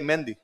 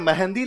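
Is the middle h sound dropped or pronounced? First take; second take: dropped; pronounced. First: The middle h sound is dropped. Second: The middle h sound is pronounced. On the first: "यदि बीच में है आए किसी अक्षर के, ये बोले नहीं जाते।" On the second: "आपने कब कहा कि मैंने तीज पर मेहंदी लगाई थी?"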